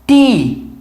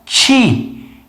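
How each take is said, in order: First: It starts with a crisp plain t sound. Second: It starts with a soft ch-like sound. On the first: "Eles vão fazer ti" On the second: "a gente põe o meio da língua"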